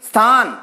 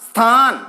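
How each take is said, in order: No difference in how they are said.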